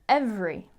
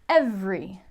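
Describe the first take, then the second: Both takes have the same delivery.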